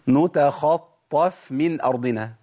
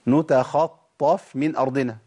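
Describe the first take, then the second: The two takes are said the same way.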